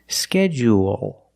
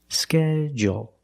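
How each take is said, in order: First: The second syllable is long, with an extra vowel. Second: The second syllable is short, without the extra vowel. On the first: "There's an extra vowel there" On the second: "you can make it short"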